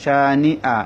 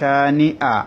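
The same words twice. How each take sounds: Both takes have the same delivery.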